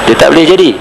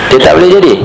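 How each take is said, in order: The two takes are said the same way.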